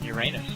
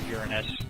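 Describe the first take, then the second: First: It is said in the juvenile-sounding way. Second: It is said in the non-juvenile way.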